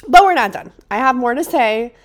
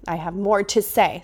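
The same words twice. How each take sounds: First: Loud, rising burst of determination; emphatic declaration. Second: Said in the usual way. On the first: Real, not acted. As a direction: insist you're not going anywhere. Declaring the podcast continues.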